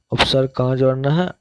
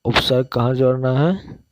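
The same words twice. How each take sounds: First: Fast, rising question to the class; rapid teacher's check question; quick quiz question. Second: Said in the usual way. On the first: Shown as a demonstration.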